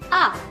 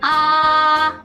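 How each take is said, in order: First: The pitch falls sharply. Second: The pitch stays high and level. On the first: "Itu jatuh. Menghentak" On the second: "Nadanya tinggi, datar"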